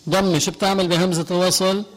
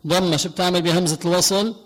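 Both takes have the same delivery.

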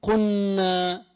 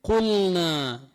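First: قلنا said as قنّا, lam swallowed into the nun; wrong merged lam. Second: قلنا with the lam clearly sounded before نا; clear lam in qulna. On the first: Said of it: "ما بقول". (قلنا بإدغام اللام خطأً) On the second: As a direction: pronounce the lam of قلنا distinctly. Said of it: "بقول قلنا". (إظهار اللام في قلنا) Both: Shown as a demonstration.

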